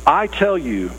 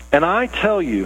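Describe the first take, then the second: First: "tell" leaned on, falling firmly; emphasis on tell. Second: Said in the usual way. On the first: Shown as a demonstration. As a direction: press down on "tell" in "I tell you". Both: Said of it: "here's that emphasis".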